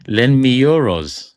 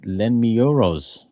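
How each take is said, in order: First: Louder, slow, drawn-out EUROS; emphatic repeat. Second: Said in the usual way. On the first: Real, not acted. Host rereads Hassan's comment after laughing, loud slow emphatic repeat. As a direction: savour the joke, stretching out euros loudly.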